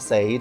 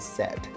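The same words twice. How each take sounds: First: The vowel sounds like the one in 'say'. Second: The vowel sounds like the one in 'bed'. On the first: The speaker calls it wrong. "It's not said" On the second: The speaker calls it right. "It would be said"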